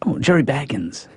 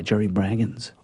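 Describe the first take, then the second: First: Baggins said with no r, plain B-aggins; hushed self-correction to Baggins; corrected name. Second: Braggins said with an r after the B; soft, hushed Braggins; wrong name. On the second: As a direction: say it as Braggins, B-r-aggins. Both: Real, not acted.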